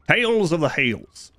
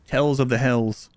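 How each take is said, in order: First: The last word rhymes with 'tales'. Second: The last word rhymes with 'tells'.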